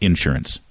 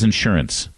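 First: The stress is on the first syllable. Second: The stress is on the second syllable. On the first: The speaker calls it wrong. "Oklahomans put the emphasis on the first syllable" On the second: The speaker calls it right. "The word is insurance"

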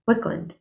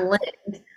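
First: The last vowel falls between u and i. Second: The last vowel is a clear i sound. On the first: "that gray area between a U and an I" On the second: "it's not Lind"

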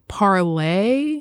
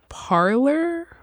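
First: The name ends with an 'ay' sound. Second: The name ends with an 'er' sound. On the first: "They really wanted it to be Parlay" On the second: "it's Parler"

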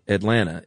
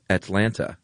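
First: The T softens, like Southern 'Adlanna'. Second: The middle T is crisp and formal.

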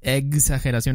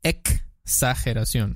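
First: The x is said with an 'egg'-like sound. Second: The x is said with a 'ks' sound. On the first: The speaker calls it wrong. "Exageración está mal" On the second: The speaker calls it right. "Es exa"

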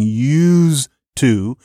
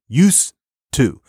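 First: The consonant before 'to' is a buzzing z. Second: The consonant before 'to' is a hissing s. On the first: "Use, that z is voiced" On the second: "you say use to"

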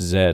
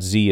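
First: The letter is said as 'zed'. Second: The letter is said as 'zee'. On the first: "it's Z" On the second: "a guy from England saying it's not Z"

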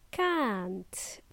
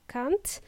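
First: The vowel is long. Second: The vowel is short. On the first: The speaker calls it right. "It's a long sound" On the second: The speaker calls it wrong. "Don't say short can't"

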